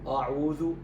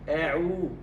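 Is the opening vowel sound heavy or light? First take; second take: heavy; light. First: The opening sound is heavy and thick. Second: The opening sound is light and thin. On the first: The speaker calls it wrong. "لا يقول" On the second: The speaker calls it right. "وإنما"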